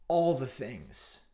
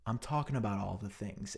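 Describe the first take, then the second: First: Slow, dragged-out all the things; a lecturer trailing off into all the things; mock professor drawl. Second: Flat, a bit softer deadpan. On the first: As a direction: stretch all the things out lazily. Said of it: "it'd be like". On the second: Retold or imitated. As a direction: say it bored and unbothered. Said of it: "deadpan look at you and say".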